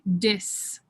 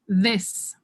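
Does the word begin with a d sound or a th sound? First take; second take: d sound; th sound. First: The word begins with a hard d sound. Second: The word begins with a soft th sound.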